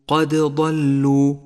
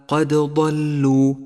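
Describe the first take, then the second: The two takes are said the same way.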